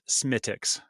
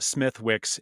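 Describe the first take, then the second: First: The word is said as 'Smittix', dropping 'th' and 'w'. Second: The word is said as spelled, with 'th' and 'w'. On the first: The speaker calls it right. "it's pronounced Smittix" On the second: The speaker calls it wrong. "even though it's spelled Smithwick's"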